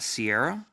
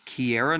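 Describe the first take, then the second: First: The name begins with an S sound. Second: The name begins with a K sound. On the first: The speaker calls it wrong. "I've been saying her name wrong" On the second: The speaker calls it right. "It's Kiera?"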